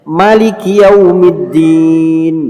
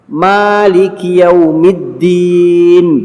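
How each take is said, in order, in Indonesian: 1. Vokal setelah m pendek. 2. Vokal setelah m panjang. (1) "Anda boleh membacanya pendek" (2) "Anda boleh membaca panjang mimnya"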